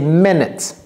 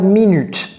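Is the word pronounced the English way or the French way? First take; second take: English; French. First: It is pronounced like the English word. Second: It is pronounced like the French word. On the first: The speaker calls it right. "c'est minutes" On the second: The speaker calls it wrong. "ce n'est pas minutes"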